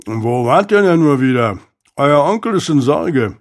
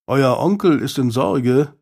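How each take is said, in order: First: Lightly voiced servant talking through food; a touch of chewing, rising then falling; remarking while chewing. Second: Said in the usual way. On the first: A narrator's reading. Servant to Isaac at the gate with pie in hand, remarking while chewing. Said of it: "und bemerkte kauend".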